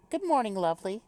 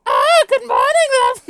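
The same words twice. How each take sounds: First: Gentle, higher-pitched British greeting; little British accent. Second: Very loud, high, hammed-up British greeting; joke British accent. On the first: Acted. Reader voices a game character's morning greeting, light British accent. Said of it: "I wanna do a little British accent". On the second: Reader greets the group as a joke, shrieky mock British accent. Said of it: "give her a little British accent".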